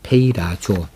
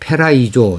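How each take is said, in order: First: The vowels come in order, giving pei-ra-zo. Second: The vowels are swapped, giving pe-rai-zo. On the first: The speaker calls it right. "페이라조입니다" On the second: The speaker calls it wrong. "페라이조 이렇게 발음을 한 것이 한두 군데 또 제 귀에 들려나더라고요. 그래서 그것을 바로잡습니다"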